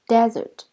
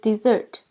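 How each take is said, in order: First: The stress is on the first syllable. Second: The stress is on the second syllable. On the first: "the stress is on the first syllable" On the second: "We stress the second syllables"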